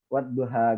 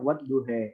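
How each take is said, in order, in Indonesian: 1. Vokal akhirnya adalah bunyi 'a' yang terbuka. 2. Vokal akhirnya condong ke bunyi 'e'. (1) "yang biasa kita pakai ya, kiroah Utsmaniyah" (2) "Dalam kiroah lain ada bacanya wat duhe"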